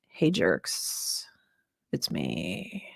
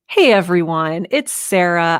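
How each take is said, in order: First: It is said in a cold, unfriendly tone. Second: It is said in a warm, smiling tone.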